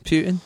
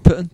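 First: "Putin" said as "PYOO-tin"; long "yoo" in the first syllable of "Putin". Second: "Putin" with a short u, like "puttin'"; said like "putting". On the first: Explaining a pun, "Putin" said as "PYOO-tin". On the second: Explaining a pun, "Putin" said like "puttin'". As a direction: say "Putin" to rhyme with "footin'". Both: Shown as a demonstration.

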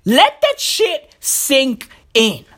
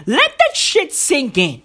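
First: "Let that shit sink in" slowly, word by word; heavy, stretched-out delivery for effect; slow, deliberate emphasis. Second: Said in the usual way. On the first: Acted. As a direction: space out each word with pauses before "sink" and "in". Slowed repeat for emphasis.

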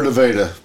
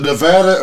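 First: "Nevada" with the vowel of day; long A. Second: "Nevada" with the a of cat; short A. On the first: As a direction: say "Nevada" as nuh-VAY-duh. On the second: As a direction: say "Nevada" as nuh-VAD-uh. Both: Shown as a demonstration. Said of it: "is it Nevada or Nevada?".

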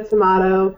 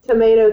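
First: "tomato" with a broad A, tuh-MAH-toh; broad A pronunciation. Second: "Tomato" with a long A, tuh-MAY-toh; long A pronunciation. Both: Shown as a demonstration. Contrasting two ways to say it.

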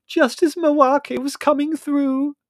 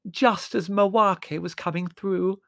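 First: Loud, high, drawn-out complaint; angry. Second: High, drawn-out, loud lament; howling. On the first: Margot cheated of her spirit guide, angry. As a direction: wail it furiously, stretching the words. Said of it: "said Margot angrily". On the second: Margot mourning the interrupted message, howling. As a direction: howl it, stretching the words miserably. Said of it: "howled Margot". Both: A narrator's reading.

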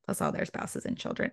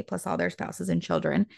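First: Whispered repeat. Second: Said in the usual way. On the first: Shown as a demonstration. Repeating the relatives list to the listener, whispered. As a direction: whisper the phrase again as a hushed aside.

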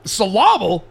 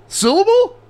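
First: Syllable said as suh-LAH-bull; mimicked mispronunciation. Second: Syllable said as SIL-uh-bull, rising high and loud; syllable with first-beat stress, incredulous question; corrected pronunciation. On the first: Host questioning cohost's word, incredulous misstressed echo. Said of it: "for real saying syllable". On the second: Shown as a demonstration. Host correcting cohost's word, loud and disbelieving. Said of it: "It's syllable".

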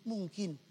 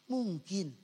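Both takes have the same delivery.

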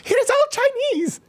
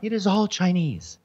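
First: Mocking the jump up an octave, very high and slow; very high, mocking mimicry; octave-up imitation. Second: Sudden high-pitched outrage on all Chinese; a pitch leap into mock outrage; voice up an octave. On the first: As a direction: squeak it way up high in mock outrage. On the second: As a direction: jump up high, scandalised. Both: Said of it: "why does your voice go up an octave".

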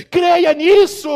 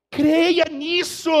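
First: Loud high cry of believe it; shouted command. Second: Slow drawn-out repeat. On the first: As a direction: shout it at the congregation. Preacher commands belief, then repeats. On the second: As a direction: stretch each word out slowly. Preacher repeats slowly, drawn out. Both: Acted.

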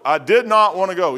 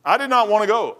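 First: "did" hit hard, then falling away; stress on DID. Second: Said in the usual way. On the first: Real, not acted. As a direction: lean firmly on the word "did". Repeats it, leaning on "did.

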